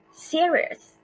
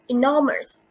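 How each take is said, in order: First: "serious" with a high-pitched, stressed SE; first-syllable stress. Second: "enormous" with the weight on NOR; second-syllable stress. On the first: Teacher contrasts exceptions, "serious" stressed on first syllable. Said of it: "first syllable". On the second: Teacher contrasts exceptions, "enormous" stressed on second syllable. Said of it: "second syllable". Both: Shown as a demonstration.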